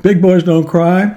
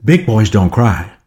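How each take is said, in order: First: High, slow questioning repeat with a rise; pitched-up, incredulous question; puzzled child echo. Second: Slow, lightly acted parental instruction; measured parent talking to a little one; well-intentioned parent. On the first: Acted. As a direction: echo it as a baffled little kid. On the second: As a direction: tell a child slowly, as a settled fact. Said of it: "in all good intention".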